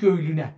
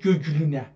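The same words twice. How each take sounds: First: The second g is softened. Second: The second g is a hard stop. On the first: This is the modern everyday form. "این گ دوم رو هم نرمش کردیم" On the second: This is the original old form. "اما در اصلش"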